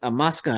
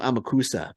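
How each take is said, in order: First: The middle u sound is left out. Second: The middle u sound is clearly pronounced. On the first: "you don't pronounce the U" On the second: "I was calling him Amakusa"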